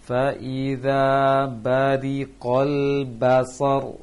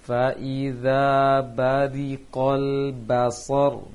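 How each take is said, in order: Both takes have the same delivery.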